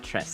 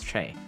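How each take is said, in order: First: The syllable ends with a hissing s sound. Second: The syllable ends on an open vowel, no s. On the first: The speaker calls it wrong. "It's not Tress" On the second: The speaker calls it right. "it's Trey"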